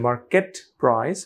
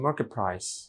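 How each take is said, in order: First: The t at the end of market is pronounced. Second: The t at the end of market sounds like p.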